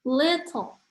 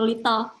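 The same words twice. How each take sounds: First: Flowing syllables with one clearly stressed syllable. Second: Short, even syllables with no clear stress. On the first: The speaker calls it right. "lebih flowy" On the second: The speaker calls it wrong. "kayak pendek-pendek"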